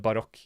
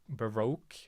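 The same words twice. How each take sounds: First: It is pronounced in the Norwegian way. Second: It is pronounced in a tentative English way. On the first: "I've only said it in Norwegian, which is uh" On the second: "Is that how you say it in English?"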